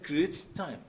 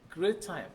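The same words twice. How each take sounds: First: Each t sound is pronounced separately. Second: The two t sounds merge into one. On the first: The speaker calls it wrong. "not necessarily create time. No, you don't need to you know, struggle to pronounce that" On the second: The speaker calls it right. "merging the two together, you will say create time"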